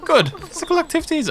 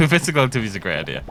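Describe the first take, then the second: First: Very high put-on female voice; exaggeratedly high mock woman. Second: Said in the usual way. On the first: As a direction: squeak it out as a falsetto woman. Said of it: "try to do a woman voice". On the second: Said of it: "I'm just gonna do normal".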